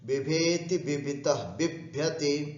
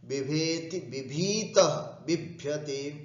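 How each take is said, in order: First: The i vowel in the middle word is short. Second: The i vowel in the middle word is long. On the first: "ह्रस्व का उपयोग कर लेते हैं" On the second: "अब हम दीर्घ का उच्चारण करके बोलते हैं"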